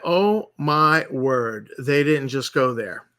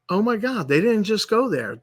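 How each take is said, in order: First: Drawn-out, slow mock gasp of disbelief; slow stunned disbelief. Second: Higher-pitched replay of his shock; higher disbelief. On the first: Retelling his reaction to the video, slow and stunned. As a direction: let the words hang, slow and stunned. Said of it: "And then I went". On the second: Retold or imitated. Retelling his shock at the orc changes, pitched higher. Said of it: "and I was like".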